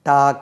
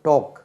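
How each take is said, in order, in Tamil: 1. உயிரொலி திறந்த 'ah' ஒலி. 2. உயிரொலி வட்டமான 'aw' ஒலி. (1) "நம்ம எப்படி உச்சரிக்கிறோம்? டாக் என்று வச்சுக்கோங்க" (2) "அதுக்கு உச்சரிப்பேங்க டோக்"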